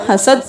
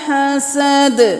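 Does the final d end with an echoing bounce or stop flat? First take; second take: flat; bounce. First: The final d stops flat without a bounce. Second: The final d ends with an echoing bounce. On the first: The speaker calls it wrong. "दोबारा दाल आ गया कलकला, हसद नहीं करना" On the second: The speaker calls it right. "दाल आ गया कलकला"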